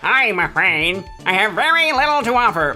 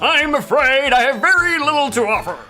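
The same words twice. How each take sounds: First: It is said in a Waluigi voice. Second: It is said in a flamboyant voice.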